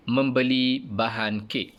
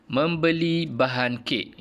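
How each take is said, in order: First: Said in the usual way. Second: "membeli bahan kek" slow, high and clear, falling at the end; title read aloud, emphatic. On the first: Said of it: "gambar yang dipaparkan ini". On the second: Shown as a demonstration. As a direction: baca tajuk "membeli bahan kek" dengan perlahan dan jelas.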